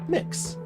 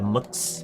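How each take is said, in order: First: The vowel is a clear short 'i' sound. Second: The vowel is reduced to a neutral schwa. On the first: This is the usual way to say it. "typically pronounced mix" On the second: This is a less common way to say it. "shorten the vowel to a schwa"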